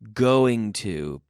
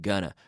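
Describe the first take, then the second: First: It is said in full, each word separate. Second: It is reduced and run together quickly.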